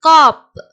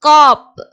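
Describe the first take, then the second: No difference in how they are said.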